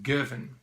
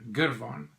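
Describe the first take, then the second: First: It is said with the local Scottish pronunciation. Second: It is said with an Afrikaans-style pronunciation. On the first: This is how the name is properly pronounced. The speaker calls it right. "apparently you pronounce it Girvan" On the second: This is how an Afrikaans speaker would naturally say it. The speaker calls it wrong. "Being Afrikaans here in South Africa, I would tend to say Girvan"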